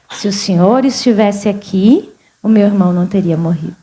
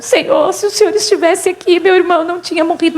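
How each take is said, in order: First: Low, measured quotation; sober restatement. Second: Higher-pitched plaintive reproach, hurrying at the end; mildly mimicked weeping. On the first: Retold or imitated. Preacher restates Martha's words to the congregation, sober restatement. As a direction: lower the pitch and quote it soberly. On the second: Martha tells Jesus of her dead brother, mildly mimicked weeping. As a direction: lightly imitate a tearful plea. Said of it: "Aí a Marta chorando".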